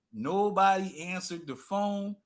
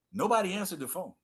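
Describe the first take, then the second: First: Drawn out, each word weighted; slow, heavy repetition; slow emphatic repeat. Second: Said in the usual way. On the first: Shown as a demonstration. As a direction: let "Nobody" sink in slowly. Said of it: "repeated for emphasis". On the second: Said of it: "repeated slower".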